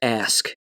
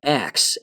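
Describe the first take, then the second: First: The word ends with an 'sk' sound. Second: The word ends with a 'ks' sound. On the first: The speaker calls it right. "instead of ask" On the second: The speaker calls it wrong. "say the term ax instead of ask"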